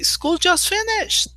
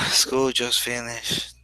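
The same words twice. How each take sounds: First: It is said in a happy, excited tone. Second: It is said in a sad, disappointed tone. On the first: The end of school is good news. "And everybody says, wow, yes" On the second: The end of school is bad news. "So I'm sad. It's, it's bad"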